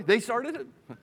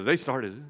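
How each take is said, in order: First: Raised-pitch mock kid's complaint; childish blame. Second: Low-pitched, mock grown-up accusation; adult blame. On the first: Preacher mimicking kids shifting the fault, childish blame. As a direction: pitch it up like a kid passing blame. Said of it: "You think just kids say that". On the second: Preacher voicing people in conflict resolution on the couch, adult blame. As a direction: drop it low, blaming the other person. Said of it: "Many people in conflict resolution".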